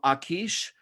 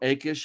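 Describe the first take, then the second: First: The name is given a non-English pronunciation. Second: The name is given an English pronunciation.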